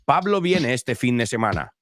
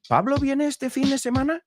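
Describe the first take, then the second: First: The pitch falls at the end. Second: The pitch rises at the end. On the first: It is a statement. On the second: It is a question.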